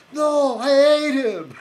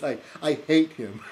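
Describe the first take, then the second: First: Drawn-out, high Scottish shout; Willie. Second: Said in the usual way. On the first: Retold or imitated. Groundskeeper correcting the boy, exaggerated Scottish yell. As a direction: bellow it slowly in hammed-up Scottish. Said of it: "like Willie on, uh, The Simpsons". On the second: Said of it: "What he means".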